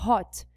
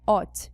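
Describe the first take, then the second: First: Hot said with a clear breathy H at the start; correct H sound. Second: Hot said as "ot", dropping the H; wrong silent H. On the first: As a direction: say hot pushing air on the H. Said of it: "a palavra é hot". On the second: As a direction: say hot with no H sound, starting on the vowel. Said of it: "a palavra não é hot". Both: Shown as a demonstration.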